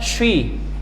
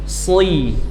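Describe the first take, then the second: First: The consonant sounds like sh, shi. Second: A thick s with no rounding or sh. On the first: The speaker calls it wrong. "atau bahkan syi" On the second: The speaker calls it right. "Ketika kasrah bunyinya sli"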